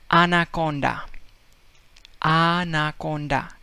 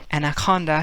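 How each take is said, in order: First: "anaconda" with all open ah vowels, Spanish style; Spanish accent. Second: Said in the usual way. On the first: Retold or imitated. Teacher imitating Spaniard saying anaconda in a Spanish accent. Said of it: "he would say". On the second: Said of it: "Anaconda in English".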